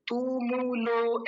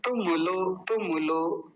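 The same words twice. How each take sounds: First: तुमुलो dragged slowly with long vowels, the wrong way; wrong drawn-out pronunciation. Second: तुमुलो said quickly with both short उ; quick short vowels. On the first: Teacher demonstrating the wrong way to students, slow and drawn out. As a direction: stretch the ऊ sounds too long on purpose. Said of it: "ऐसा नहीं, गलत उच्चारण है". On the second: Teacher giving the correct quick form after the wrong one. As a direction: snap through तुमुलो briskly, short vowels. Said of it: "जल्दी बोला जाएगा". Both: Shown as a demonstration.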